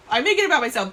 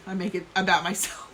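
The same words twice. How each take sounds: First: Laughing, louder and higher. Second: Said in the usual way. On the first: Real, not acted. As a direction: laugh through the joke. Repeats joke with laugh.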